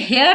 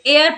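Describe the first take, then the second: First: The word begins with an h sound. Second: The word begins with a vowel, no h. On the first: The speaker calls it wrong. "इसे हेयर नहीं पढ़ते" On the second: The speaker calls it right. "एयर पढ़ते हैं"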